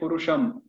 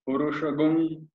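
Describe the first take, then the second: First: The word ends with a plain m sound. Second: The word ends with a gum sound. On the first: This is the ordinary way of chanting. "like we chant" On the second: This is the Vedic way of chanting. "They'll chant it like Purushagum"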